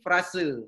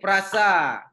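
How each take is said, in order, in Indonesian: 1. Kata ini berakhir dengan bunyi vokal 'eh'. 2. Kata ini berakhir dengan bunyi vokal 'ah'. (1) "tetapi diucapkan menjadi frase" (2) "Seharusnya frasa"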